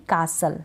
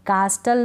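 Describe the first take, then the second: First: "कासल" with a silent T; correct pronunciation. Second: "कास्टल" with the T sounded; mispronounced "कास्टल", T after the S; wrong pronunciation. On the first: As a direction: leave the T out of "कासल". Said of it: "कासल correct pronunciation". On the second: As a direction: put a hard T in "कास्टल". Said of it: "कास्टल नहीं". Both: Shown as a demonstration.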